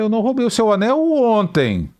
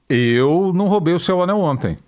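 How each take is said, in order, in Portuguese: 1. A palavra ontem recebe o acento. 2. A palavra eu recebe o acento. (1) "Anteontem eu roubei" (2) "O Anselmo eu não sei"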